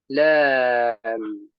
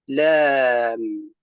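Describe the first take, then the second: The two takes are said the same way.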